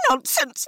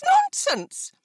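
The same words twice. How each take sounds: First: Very high, rising dismissal; dismissive mother. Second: Very high, falling, final dismissal; emphatic mother. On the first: Wife dismissing husband, very high. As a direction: wave it away shrilly. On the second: Wife dismissing husband, very high and emphatic. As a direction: slam the second one down. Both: A narrator's reading. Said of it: "Missus Bennet said only".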